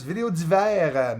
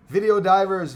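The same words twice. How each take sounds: First: D'hiver said the French way, dee-VAIR; French pronunciation. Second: Said in the usual way. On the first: Shown as a demonstration. Correcting a viewer's name to French, Video d'hiver said dee-VAIR. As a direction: Video d'hiver with a French accent on d'hiver, stress on the last syllable.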